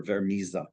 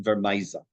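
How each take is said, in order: First: "Vermisa" as ver-MEE-za; alternative pronunciation. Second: "Vermisa" as ver-MY-za; first variant pronunciation. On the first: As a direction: stress an 'ee' vowel in the middle of "Vermisa". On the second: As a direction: stress an 'eye' vowel in the middle of "Vermisa". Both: Shown as a demonstration. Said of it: "I've heard different pronunciations".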